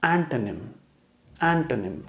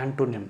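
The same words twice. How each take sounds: First: एंटोनिम with a light schwa, an-tuh-nim; correct pronunciation. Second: एंटोनिम with a full o, the common mistake; wrong pronunciation. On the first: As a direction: say एंटोनिम softly reduced in the middle. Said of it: "इसका सही pronunciation है". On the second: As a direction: say एंटोनिम as ant-o-nim. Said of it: "कई लोग एंटोनिम बोलते हैं". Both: Shown as a demonstration.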